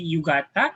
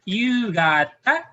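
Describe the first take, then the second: First: The first vowel is kept short. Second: The first vowel is held long. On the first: The speaker calls it wrong. "so you don't say yugata" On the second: The speaker calls it right. "the long U sound"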